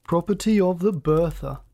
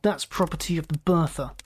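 First: Mocking echo with swooping emphasis; drawled. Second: Mildly angry assertion; understated snarl; snarled warning. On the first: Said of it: "he drawled". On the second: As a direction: claim it firmly, warning him off. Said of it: "Scott snarled". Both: A narrator's reading.

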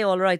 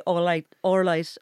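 First: Said in the usual way. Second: "all right" run together as "or-light"; Belfast pronunciation. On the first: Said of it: "They don't say". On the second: Shown as a demonstration. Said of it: "They say".

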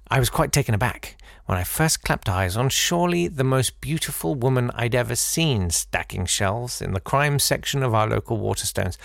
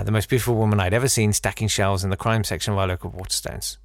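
First: "seen" lifted into a rising tune, reading it as if "seen stacking shelves" were the point; a misplaced rise on "seen" that ends with a fall on "of"; wrong inflection. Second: Faster, stress on "ever" as in "the most beautiful woman I'd ever seen"; corrected inflection. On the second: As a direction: run it smoothly, leaning on "ever". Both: Shown as a demonstration. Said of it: "I think the inflection I gave that was wrong".

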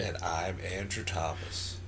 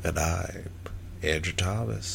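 First: Low, soft self-introduction; very quiet. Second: A bit less hushed, still soft; quiet. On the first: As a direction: say your name far too softly. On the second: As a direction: repeat your name softly, slightly firmer. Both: Real, not acted. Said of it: "You're so quiet".

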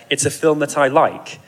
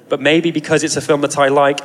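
First: Said in the usual way. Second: Lightly sarcastic, a bit louder; a dry, knowing little jab; hint of sarcasm. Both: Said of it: "and then with a hint of sarcasm".

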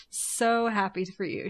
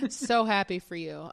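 First: Strained, slowed forced congratulations; through gritted teeth. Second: Forced, tight-jawed well-wishing; through gritted teeth. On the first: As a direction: grit your teeth and say it slowly. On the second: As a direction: say it with clenched teeth. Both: Pretend. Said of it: "she says through gritted teeth".

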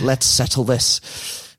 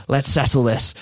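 First: Slow, muddled attempt at Danish-Mancunian; botched Danish-Manc accent. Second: Put-on second stab at a Danish-Mancunian accent; half-Danish, half-Manc accent. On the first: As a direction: fumble a half-Danish, half-Manc accent, drawn out. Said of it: "Don't know what that accent was". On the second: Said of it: "he's got that weird half Danish, half Manc accent".

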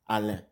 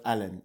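First: Alain the French way, ending on a nasal vowel; silent N. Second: Alain with the final N sounded out; wrong pronunciation shown. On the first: Guest corrects host's pronunciation, Alain with silent N. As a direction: Alain with no N sounded at the end. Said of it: "you don't pronounce the N". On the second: Guest corrects host, showing Alain with a spoken N. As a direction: end Alain on a hard, audible N. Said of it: "not Alain". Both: Shown as a demonstration.

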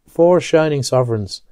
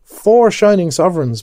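First: Mild delight. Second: High, loud cry of delight. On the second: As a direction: crow it out with glee. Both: Acted. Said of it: "cried with delight".

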